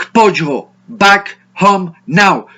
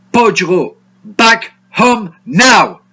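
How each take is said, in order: No difference in how they are said.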